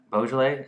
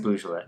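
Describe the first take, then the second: First: Beaujolais opening with a "bo" sound; variant pronunciation. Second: Beaujolais opening with a "boo" sound; variant pronunciation. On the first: Host offers the other option, Beaujolais said with "bo". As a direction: say Beaujolais as "BO-zhuh-lay". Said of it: "I've heard both". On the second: Host guesses the correct word, Beaujolais said with "boo". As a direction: say Beaujolais as "BOO-zhuh-luh". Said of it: "what's the correct". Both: Shown as a demonstration.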